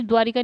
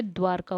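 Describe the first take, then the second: First: द्वारिका said with an extra i, du-vaa-ri-kaa; the wrong form द्वारिका, four syllables with ri; द्वारिका sounded out with a short i after vaa; wrong pronunciation. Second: द्वारका said as dvaar-kaa, no i after vaa; the right form द्वारका, two clean syllables; द्वारका with r straight into kaa; correct pronunciation. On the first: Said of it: "द्वारिका नहीं होता है". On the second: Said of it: "द्वारका होता है". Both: Shown as a demonstration.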